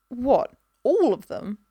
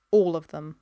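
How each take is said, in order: First: ALL high, loud and drawn out; incredulous question. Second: Low, even, final answer; firm confirmation. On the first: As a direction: balk slowly, leaping up on "all". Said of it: "he said". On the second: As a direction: confirm it without budging. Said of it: "he said at last". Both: A narrator's reading.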